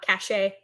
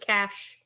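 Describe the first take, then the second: First: It is said as two syllables, like ca-shay. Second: It is said as one syllable, like cash. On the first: The speaker calls it wrong. "not cachet" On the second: The speaker calls it right. "That word is cash"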